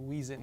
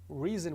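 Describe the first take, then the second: First: The word begins with a W sound. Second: The word begins with a clear R sound.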